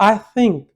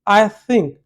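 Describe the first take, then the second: Both takes have the same delivery.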